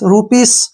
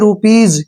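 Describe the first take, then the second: First: The word ends with a hissing s sound. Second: The word ends with a buzzing z sound. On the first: The speaker calls it wrong. "गलत है।" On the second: The speaker calls it right. "इसका सारे का जो उच्चारण है वो जय होगा"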